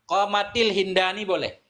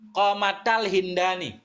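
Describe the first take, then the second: First: An i vowel links the two words. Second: An a vowel links the two words. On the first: "Kasrah boleh" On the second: "fathah boleh"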